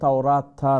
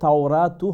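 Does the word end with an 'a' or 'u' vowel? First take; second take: a vowel; u vowel. First: The word ends with an 'a' vowel. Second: The word ends with an 'u' vowel. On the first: The speaker calls it wrong. "তাওরাতা নয়" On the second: The speaker calls it right. "এখানে তাওরাতু হবে"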